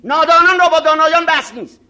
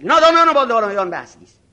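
First: Louder, proud decree with weight on را; haughty shout. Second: Louder, stress on نادانان, falling; haughty shout. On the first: Arrogant cleric shouting down a young student, haughty and loud. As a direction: declare it loudly like a scornful scholar. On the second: Arrogant cleric repeating his verdict to a student, loud and scornful. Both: Retold or imitated.

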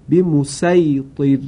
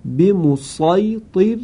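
First: به مسیطر slow with plain s; به مسیطر with sin. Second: به مسیطر slow with emphatic sad, higher. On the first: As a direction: recite به مسیطر with light s. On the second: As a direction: recite به مسیطر with heavy s. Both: Shown as a demonstration.

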